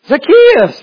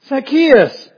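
First: The name is called out sharply and urgently. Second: The name is said in a plain reading voice.

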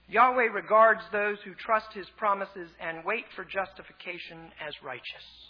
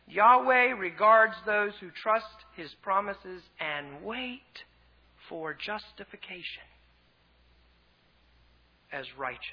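First: The sentence is read plainly, without special emphasis. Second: The sentence is read with some words emphasized. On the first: "I'll read it once" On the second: "then I'll read it again with some emphasis"

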